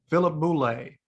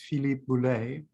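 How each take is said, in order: First: The name is said with an American accent. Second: The name is said with a French accent. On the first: "That was a terrible Philadelphia accent" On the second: "I'm going to pretend he lives in France"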